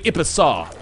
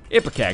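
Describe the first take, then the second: First: The word ends with a soft 'saw' sound. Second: The word ends with a hard 'kak' sound. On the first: The speaker calls it right. "it should be. It's actually Ipesaw or something like that" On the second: The speaker calls it wrong. "it's a very uncouth way of saying"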